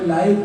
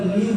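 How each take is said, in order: First: The vowel is long, rhyming with five. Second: The vowel is short, rhyming with give. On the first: The speaker calls it wrong. "लाइव नहीं है" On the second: The speaker calls it right. "यहाँ पर लिव है"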